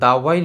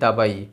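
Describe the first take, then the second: First: The middle consonant is a w sound. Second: The middle consonant is a b sound. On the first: The speaker calls it right. "যখন দাওয়াই লেখা হয়" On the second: The speaker calls it wrong. "আমরা পড়ছি দাবাই"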